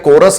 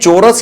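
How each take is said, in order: First: It starts with a k sound, ko-ras. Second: It is said as two syllables, cho-ras. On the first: "ये चोरस या कोरस नहीं होता" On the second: "ये चोरस या कोरस नहीं होता"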